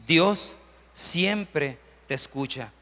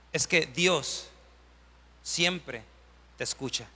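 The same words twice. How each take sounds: First: Very slow, drawn-out declaration; slow, weighty restatement; slow emphatic. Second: Quiet. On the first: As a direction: lean on every word of Dios siempre te escucha. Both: Shown as a demonstration.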